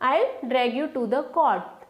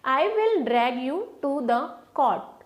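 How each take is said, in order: First: I will is contracted to I'll. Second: I will is said as two full words.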